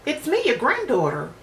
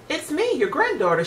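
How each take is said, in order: First: Put-on wolf faking a little girl's voice, higher; mock girlish, trying hard to fool her. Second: Put-on higher cheerful child's voice; a bright little girl at the door. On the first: Wolf at grandmother's door, hamming a girl's voice. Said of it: "to sound like a little girl". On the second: Girl greeting her grandmother, higher childlike voice. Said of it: "she responded". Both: A narrator's reading.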